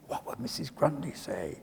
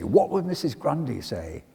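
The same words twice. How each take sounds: First: "What would Missus Grundy say?" much softer, in an altered voice; a hushed, ominous aside; hushed echo. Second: Said in the usual way. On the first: Shown as a demonstration. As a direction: let the question fall to a fearful hush. Echo of the dreaded question.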